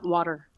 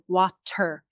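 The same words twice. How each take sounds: First: The middle t is reduced and softened. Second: The middle t is pronounced clearly. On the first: The speaker calls it wrong. "Not water" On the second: The speaker calls it right. "I have to be careful with my T's. So I have to say water"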